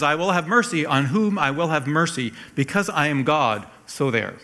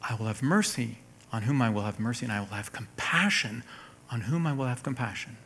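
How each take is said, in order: First: Forceful divine pronouncement, raised pitch; stern, emphatic verdict with no room for argument; somewhat frightening. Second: Gentle, softer divine promise; completely different emphasis. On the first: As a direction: lay down the law as an almighty God. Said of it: "That sounds kind of frightening". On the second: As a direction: read it quietly, as reassurance. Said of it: "The emphasis in Romans nine is completely different". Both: Acted.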